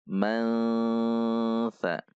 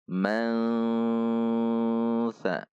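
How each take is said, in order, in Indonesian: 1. Bunyi sengau menyatu dengan bunyi mirip s yang mengikuti. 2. Bunyi sengau menyatu dengan bunyi mirip s yang mengikuti.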